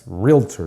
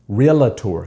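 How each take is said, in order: First: No vowel is heard between the L and T. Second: An extra vowel is heard after the L. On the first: The speaker calls it right. "Yes, realtor" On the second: The speaker calls it wrong. "not realtor. There's no A after the L"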